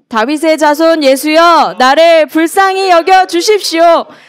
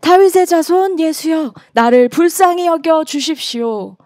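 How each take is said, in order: First: It is shouted in a loud voice. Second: It is read at normal volume.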